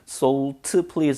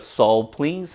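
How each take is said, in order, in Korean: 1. "salt"의 t는 완전히 터져요. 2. "salt"의 t는 짧게 끊겨요. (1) "Salt, please 아니고" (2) "앞자음은 분명히 contraction 축약이 돼버립니다"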